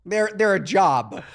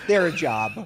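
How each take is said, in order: First: They're, they're a job dragged out slowly, each word leaned on; slow weighted emphasis. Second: Said in the usual way. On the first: Acted. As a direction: drawl They're, they're a job as a heavy complaint. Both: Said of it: "They're a full-blown job".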